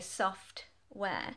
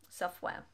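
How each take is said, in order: First: The T is fully released, splitting the word. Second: The T is replaced by a brief throat stop. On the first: The speaker calls it wrong. "I'm not going to say software because that would break up the whole word" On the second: The speaker calls it right. "We actually use um, something called the glottis here in the throat"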